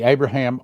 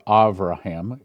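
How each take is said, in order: First: The name is pronounced the English way. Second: The name is pronounced the Hebrew way.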